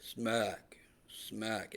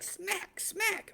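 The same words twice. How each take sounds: First: Low, soft, limp words; feeble, bored hammer blows; dull, unexcited. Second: Very high, quick, sharp blows; squeaky, lively bursts; excited hammering. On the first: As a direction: let each word drop lifelessly. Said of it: "it's not gonna be like". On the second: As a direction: pitch each word way up like a hammer strike. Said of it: "It's gonna be like". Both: Shown as a demonstration.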